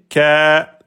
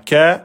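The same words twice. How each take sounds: First: The vowel is long, held two beats. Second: The vowel is short, held one beat. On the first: The speaker calls it right. "mais ka, deux temps" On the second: The speaker calls it wrong. "vous dites pas ka"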